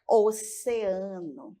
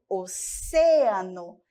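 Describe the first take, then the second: First: "oceano" stressed o-ce-A-no; Portuguese stress on A. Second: "oceano" slowly, stressed o-CE-a-no; Spanish stress on CE. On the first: Teacher contrasts the Portuguese, stressing A in "oceano". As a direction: stretch the A in "oceano". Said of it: "no português nós temos". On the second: Teacher shows the Spanish, slowly stressing CE in "oceano". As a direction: punch CE in "oceano". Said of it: "Nós vamos ter". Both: Shown as a demonstration.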